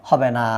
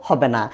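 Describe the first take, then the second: Both takes have the same delivery.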